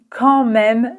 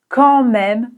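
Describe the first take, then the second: Both takes have the same delivery.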